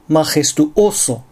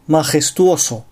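First: A glottal catch breaks the word in the middle. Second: The word flows smoothly with no glottal catch. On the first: The speaker calls it wrong. "単語の途中に正門閉鎖を入れてしまう" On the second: The speaker calls it right. "正しく"

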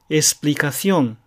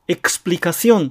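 First: The x is pronounced as s. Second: The x is pronounced as ks. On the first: "より普通の発音はエスプリカシオン" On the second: "エクスプリカシオンという発音もあることはあります"

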